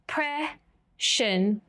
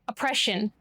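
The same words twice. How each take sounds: First: It is said in separated syllables. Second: It is said smoothly as one word.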